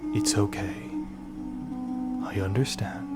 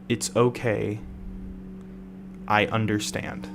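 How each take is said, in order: First: It is said in a deeper, vibrating voice. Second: It is said in an ordinary speaking voice.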